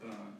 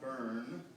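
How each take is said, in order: First: Burn is said without a drawn-out er sound. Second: Burn is said with a drawn-out er sound. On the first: The speaker calls it right. "but burn" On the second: The speaker calls it wrong. "not burn. We don't want the er sound"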